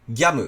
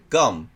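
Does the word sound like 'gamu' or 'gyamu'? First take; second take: gyamu; gamu. First: The vowel is a glided 'gya'. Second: The vowel is a plain 'ga'. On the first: The speaker calls it wrong. "ギャムって言っちゃってる場合もあるので、それは注意してください" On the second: The speaker calls it right. "こっちの記号なのに"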